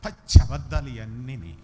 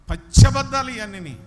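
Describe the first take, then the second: First: Said in the usual way. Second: పచ్చి అబద్ధాలు shouted higher and much louder; loud denunciation. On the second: Real, not acted. Preacher condemning the songs to the church, loud shout. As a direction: hammer it home to the congregation.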